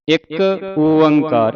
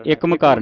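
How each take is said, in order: First: ਇੱਕ ਓੰਕਾਰ drawn out slowly, ਓੰਕਾਰ as its own word; correct pronunciation. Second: ਇੱਕ ਮਕਾਰ run together quickly with an m; wrong pronunciation. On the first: Teacher showing children the scripture reading, careful and slow. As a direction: say ਇੱਕ, then a long, louder ਓੰਕਾਰ. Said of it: "ਇਸ ਤਰ੍ਹਾਂ ਉਚਾਰਨ ਕਰਨਾ". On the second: Teacher showing children what to avoid, run-together mispronunciation. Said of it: "ਨਹੀਂ ਉਚਾਰਨ ਕਰਨਾ". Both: Shown as a demonstration.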